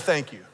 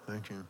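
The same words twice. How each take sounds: First: It is said loudly and clearly. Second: It is said very quietly, barely audible.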